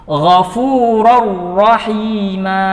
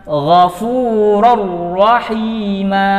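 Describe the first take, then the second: No difference in how they are said.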